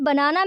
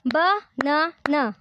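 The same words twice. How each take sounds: First: Said in the usual way. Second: banana broken into three separate beats; syllable by syllable. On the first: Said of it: "three syllable हैं". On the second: Shown as a demonstration. Teacher has learners clap out syllables, banana in separate beats. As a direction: say banana slowly, pausing after each syllable. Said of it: "practice with me by clapping and read aloud".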